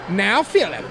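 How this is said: It is said in a put-on mother's voice.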